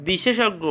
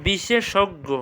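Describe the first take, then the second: First: Said in the usual way. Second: "বিশেষজ্ঞ" split as বিশে-শোগ্গো; slight break inside "বিশেষজ্ঞ"; careful pronunciation. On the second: Shown as a demonstration. Teacher checking students understand, "বিশেষজ্ঞ" carefully split. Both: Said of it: "বুঝছো কথাটা".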